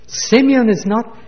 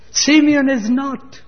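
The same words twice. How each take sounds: First: Simeon is not pitched up, with a lift on Simeon; a father's cry over a lost son; grieving cry. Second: Simeon is not high and slow, stretched out; mocking echo. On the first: Acted. Preacher voicing Jacob to his sons, a grieving cry. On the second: Preacher repeating Jacob's mistaken words, high slow mock echo. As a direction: echo the old man's mistake with gentle irony.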